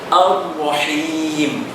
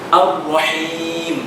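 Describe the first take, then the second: The two takes are said the same way.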